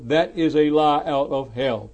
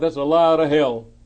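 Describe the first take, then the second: First: The sentence is said slowly and deliberately. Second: The sentence is said at a normal pace.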